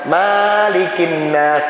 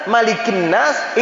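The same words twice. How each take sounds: First: The vowel after the m is drawn out long. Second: The vowel after the m is kept short. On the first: The speaker calls it wrong. "Banyak yang baca kayak gitu. Salah itu" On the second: The speaker calls it right. "itu tidak ada yang panjang, pendek"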